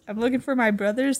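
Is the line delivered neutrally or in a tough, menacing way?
neutral. It is said in a plain, neutral way. "She says"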